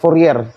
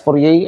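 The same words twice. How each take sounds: First: The name is said with an English pronunciation. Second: The name is said with a French pronunciation. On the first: "let's just read it as Fourier" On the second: "it's pronounced correctly as Fourier, I think. Yeah, it's French"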